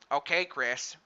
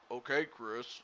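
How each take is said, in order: First: It is said in a Peter Griffin impression. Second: It is said in the speaker's normal voice.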